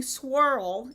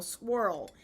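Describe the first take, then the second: First: Swirl drawn out slowly in a Southern accent, almost like squirl. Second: Swirl said softly and cleanly with a plain w, no squirrel sound; careful swirl. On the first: Talking viewers through the word with a Southern swirl. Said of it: "sometimes my Southern accent will prevail". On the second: Correcting commenters with a careful, clear swirl. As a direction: settle it with one clear swirl. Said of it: "I am saying swirl". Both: Shown as a demonstration.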